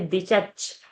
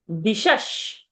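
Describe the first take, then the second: First: The consonants are stopped ch sounds. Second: The consonants are hissing sh sounds. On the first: The speaker calls it wrong. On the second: The speaker calls it right.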